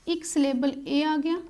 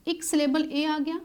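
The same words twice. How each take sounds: The two takes are said the same way.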